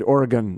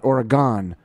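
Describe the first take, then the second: First: The last syllable is reduced, like 'gun'. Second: The last syllable is full, like 'gone'. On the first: The speaker calls it right. "Notice I said Oregon" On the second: The speaker calls it wrong. "not Oregon. There's no E at the end of that"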